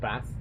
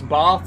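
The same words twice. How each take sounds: First: The vowel is short, as in 'cat'. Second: The vowel is long, as in 'father'. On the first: This is the northern way of saying it. "I'm a northern lass, and we we pronounce it Bath" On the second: This is the southern way of saying it. "It's Bath, says Xander"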